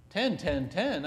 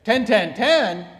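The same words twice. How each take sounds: First: Said in the usual way. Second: High, loud incredulous repeat; loud shocked question; surprised. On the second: Real, not acted. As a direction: echo it in disbelief. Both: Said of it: "I thought you said you ran".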